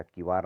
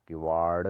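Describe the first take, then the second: First: किवार ending in plain r; wrong r. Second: किवाड़ ending in a curled-tongue d; correct ड़. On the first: Teacher showing the error, किवार with r ending. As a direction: say किवार with r at the end. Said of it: "नहीं होता". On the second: Teacher correcting it, किवाड़ with retroflex ending. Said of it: "होता है". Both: Shown as a demonstration.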